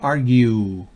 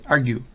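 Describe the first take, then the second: First: The u vowel is long. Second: The u vowel is short. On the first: The speaker calls it right. "Una U extendida, una U larga" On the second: The speaker calls it wrong. "no es argue"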